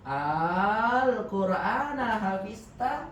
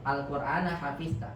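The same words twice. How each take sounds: First: The opening vowel is drawn out long. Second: The opening vowel is said short. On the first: It asks whether the Quran has been memorized. "maka a-nya dibaca dengan digabungkan, dipanjangkan" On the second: It states that the Quran has been memorized. "ini bukan kalimat tanya ya. ... kalimat pengabaran"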